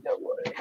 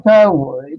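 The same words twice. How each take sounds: First: Whispered under her breath. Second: Said in the usual way. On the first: Real, not acted. Reassuring herself, fading out.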